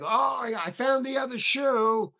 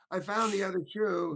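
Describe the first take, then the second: First: Mock excited shout. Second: Said in the usual way. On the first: Actor playing the shoe scene on set, hammed-up excited shout. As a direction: burst out like you just found the thing.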